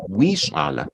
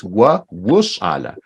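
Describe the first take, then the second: First: Low, soft "wi shala" with an ee vowel; "wi shala", first word as wee; mistaken pronunciation. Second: Slow, low "wa wu shala" with oo in the middle; "wa wu shala", unhurried, with rounded "wu"; corrected pronunciation. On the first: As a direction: say "wi" like English "we" before "shala". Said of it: "but this is not correct". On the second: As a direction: say "wu" as woo in "wa wu shala". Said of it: "this is not correct. It's". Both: Shown as a demonstration.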